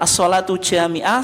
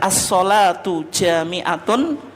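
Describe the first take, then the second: First: The phrase ends with the sound -ah. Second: The phrase ends with the sound -atun. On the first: The phrase is read with a pause at the end. "Kalau diwakafkan" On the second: The phrase is in the nominative case. "Ini kalau dibaca marfu'"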